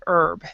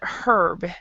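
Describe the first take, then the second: First: The word starts with no h sound. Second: The word starts with an h sound. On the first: "I pronounce it without the H" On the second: "other people pronounce it herb"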